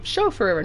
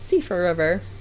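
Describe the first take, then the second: First: The name begins with a 'sh' sound. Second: The name begins with an 's' sound. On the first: The speaker calls it wrong. "It looks like Chauffeur River" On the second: The speaker calls it right. "but it's Sifra"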